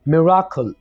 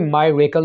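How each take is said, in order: First: The first syllable sounds like 'mih'. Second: The first syllable sounds like 'my'. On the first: The speaker calls it right. "बल्कि ये word होगा मिराकल" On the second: The speaker calls it wrong. "इसको आपने मायरेकल नहीं बोलना"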